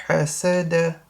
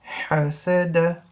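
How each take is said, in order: The two takes are said the same way.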